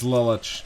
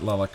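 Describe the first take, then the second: First: The name ends with a 'ch' sound. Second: The name ends with a 'k' sound. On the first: The speaker calls it right. "it is Lilich" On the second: The speaker calls it wrong. "not Lilik"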